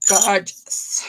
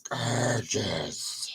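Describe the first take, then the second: First: Said in the usual way. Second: Much lower, softer echo of the word Gorgeous; a deep echo repeating Gorgeous right after herself; double voice. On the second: Shown as a demonstration. Seller echoing her own praise in a much lower voice. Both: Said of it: "that was my double voice".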